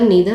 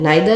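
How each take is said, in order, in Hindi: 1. पहला स्वर 'ee' जैसा बोला जाता है। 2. पहला स्वर 'eye' जैसा बोला जाता है। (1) "कहीं कोई कोई नीदर भी बोलते हैं" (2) "नाइदर, नीदर आप कुछ भी बोल सकते हैं"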